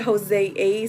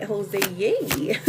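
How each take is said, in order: First: Said in the usual way. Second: "Jose, yay" softly run together as a little cheer; misread as a cheer. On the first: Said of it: "I was reading it and it said". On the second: Retold or imitated. Host explaining a misread name, "Jose, yay" as a soft mock cheer. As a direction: read "Jose, yay" with the A turned into "yay". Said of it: "so I was like".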